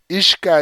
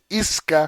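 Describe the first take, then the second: First: The middle consonant is an 'sh' sound. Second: The middle consonant is an 's' sound. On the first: This is the original pronunciation of the name. "Ishka es como se pronuncia" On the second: This is the form used in the translation. "Isca nos la traduce aquí"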